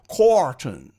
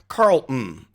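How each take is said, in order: First: The L sound in the name is dropped. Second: The L sound in the name is pronounced.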